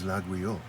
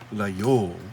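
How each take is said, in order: First: The name is said the standard French way. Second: The name is said the local way. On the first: This is the standard French way to say it. "the proper French, I suppose, pronunciation is Laguiole" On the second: This is how the town's residents say it. "the locals pronounce it Layole"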